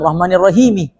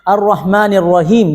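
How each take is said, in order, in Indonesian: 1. Kata terakhir berakhir dengan vokal tambahan. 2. Kata terakhir berakhir dengan konsonan.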